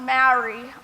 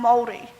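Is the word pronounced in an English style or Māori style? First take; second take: English style; Māori style. First: The word has an English-style pronunciation. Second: The word has a Māori-style pronunciation. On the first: This is how many people carelessly say the name. The speaker calls it wrong. "I am not Maori" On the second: This is the name said with proper effort and respect. The speaker calls it right. "I am Māori"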